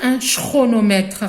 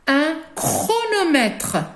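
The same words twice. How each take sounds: First: The first sound is not a k sound. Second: The first sound is a k sound. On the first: The speaker calls it wrong. "on ne va pas dire un chronomètre" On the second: The speaker calls it right. "trois consonnes va se lire K"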